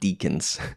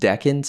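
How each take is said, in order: First: The first syllable sounds like 'deek'. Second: The first syllable sounds like 'deck'. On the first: The speaker calls it wrong. "and not deacons" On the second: The speaker calls it right. "they're pronounced decans"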